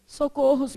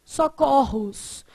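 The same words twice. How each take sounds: First: Socorros said with a closed ô, socôrros; the wrong Socorros with a closed o; common mistake. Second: Socorros said slowly with an open ó, socórros; slow correct Socorros with open o; correct plural, slowly. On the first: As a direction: keep the o of Socorros closed like the singular. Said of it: "Aí a gente vai lá e faz o quê?". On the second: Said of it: "Socorro faz o quê?". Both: Shown as a demonstration.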